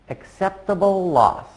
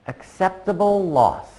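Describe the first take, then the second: No difference in how they are said.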